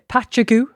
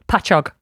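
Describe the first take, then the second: First: The word ends with a goo sound. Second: The word ends with an og sound. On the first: The speaker calls it wrong. "some people pronounce this uh" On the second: The speaker calls it right. "But it's Pachog"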